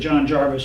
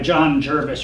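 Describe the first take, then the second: First: The surname's first vowel sounds like 'ar'. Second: The surname's first vowel sounds like 'er'.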